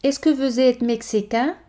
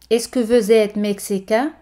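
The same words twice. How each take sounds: The two takes are said the same way.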